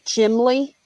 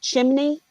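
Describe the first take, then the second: First: The middle consonant is an L sound. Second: The middle consonant is an N sound. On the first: "they'll say chimley" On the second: "instead of saying chimney"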